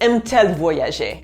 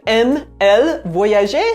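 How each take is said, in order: First: A t sound links the verb and the pronoun. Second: The two vowels meet with no added t sound. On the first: The speaker calls it right. "you have to add a T in between to make it sound pretty" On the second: The speaker calls it wrong. "Instead of"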